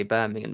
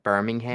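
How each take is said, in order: First: Said in the usual way. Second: "Birmingham" with a full final "ham"; mock American "Birmingham", last syllable said as HAM; American pronunciation. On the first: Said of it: "Have you seen how Americans say". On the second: Showing how Americans say it, "Birmingham" ending in a clear HAM. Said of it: "how Americans say Birmingham".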